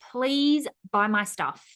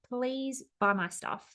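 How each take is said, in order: First: It sounds pleading and desperate. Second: It sounds calm and unpressured.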